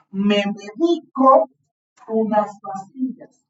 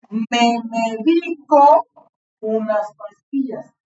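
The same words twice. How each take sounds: First: "me medico" said slowly with stress on "di"; teacher lets the class hear stress on "di" of "medico"; slow model reading. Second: "me medico" drawn out even more slowly, stress on "di"; slower repeat. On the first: Teacher modelling for pupils, slow "me medico" stressed on "di". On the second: Teacher repeats the example, very slow "medico" stressed on "di". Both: Shown as a demonstration. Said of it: "escuchen cómo la pronuncio".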